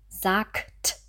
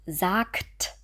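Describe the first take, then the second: No difference in how they are said.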